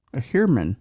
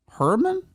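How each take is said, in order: First: Said in the usual way. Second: "Herman" sharply rising into a high question. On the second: Real, not acted. Host unsure of a suspect's surname, questioning "Herman". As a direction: say "Herman" as a high-pitched, doubtful query.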